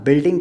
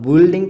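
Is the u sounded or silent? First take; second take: silent; sounded. First: The u vowel is silent in the word. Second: The u vowel is sounded in the word. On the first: The speaker calls it right. "अब बिल्डिंग कहना है आपको" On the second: The speaker calls it wrong. "अब बिल्डिंग तो नहीं कह सकते ना"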